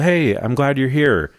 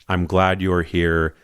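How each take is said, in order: First: It sounds light and casual. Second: It sounds deep and sincere.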